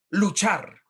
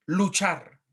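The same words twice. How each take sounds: The two takes are said the same way.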